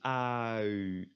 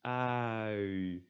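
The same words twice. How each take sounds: The two takes are said the same way.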